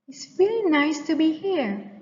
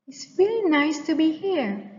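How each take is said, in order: First: It is soft, rising high and cheerful. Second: The same.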